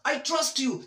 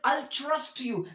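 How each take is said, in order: First: The tr starts with a hard t sound. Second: The tr sounds close to a ch sound. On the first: The speaker calls it wrong. "That's wrong" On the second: The speaker calls it right. "I will say"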